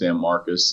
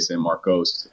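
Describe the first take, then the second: First: The name is said the local Texas way. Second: The name is said the nonlocal way. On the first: The speaker is a local. "the right way that people say it locally" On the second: The speaker is not from there. "you hear a lot of folks uh, say"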